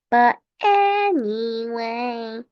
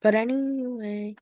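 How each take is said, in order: First: Slow, stretched "anyway"; drawn-out repeat. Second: Said in the usual way. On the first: Pretend. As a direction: drag out "anyway" for comic effect.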